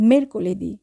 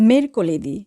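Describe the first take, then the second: No difference in how they are said.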